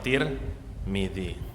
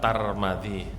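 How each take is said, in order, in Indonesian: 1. Dua suku kata pertama memakai vokal i. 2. Dua suku kata pertama memakai vokal a. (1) "Kalau taknya di kasroh, mimnya harus di kasroh" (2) "Kalau taknya di fathah, mimnya di fathah"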